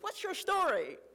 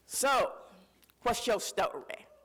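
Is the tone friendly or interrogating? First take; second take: friendly; interrogating. First: It sounds warm and friendly, like an icebreaker. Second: It sounds probing and sly, like Bowley's interrogation.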